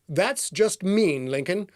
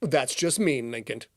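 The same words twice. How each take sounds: First: Slow, drawn-out wounded tone; hurt retake. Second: Said in the usual way. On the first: Acted. Gary slowly tells Lincoln he's hurt, drawn out. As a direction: stretch it out like he's mildly offended.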